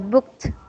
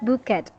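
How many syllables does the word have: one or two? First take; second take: one; two. First: The ending is a short t sound, no extra syllable. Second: The ending is said as a separate ed syllable. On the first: The speaker calls it right. "the sound will become t" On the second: The speaker calls it wrong. "it's not booked. You don't have to read this as ed"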